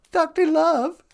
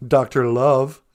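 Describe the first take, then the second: First: Squeaky, much higher Doctor Love; high silly voice. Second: Said in the usual way. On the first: Pretend. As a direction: pipe it up high and goofy. Repeats name in high voice.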